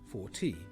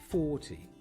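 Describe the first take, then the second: First: The stress is on the second syllable. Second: The stress is on the first syllable. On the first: The speaker calls it wrong. "We don't say" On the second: The speaker calls it right. "The stress is always on the first syllable"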